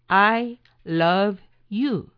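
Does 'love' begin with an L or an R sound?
L. Love begins with a clear English L sound. It expresses love for someone.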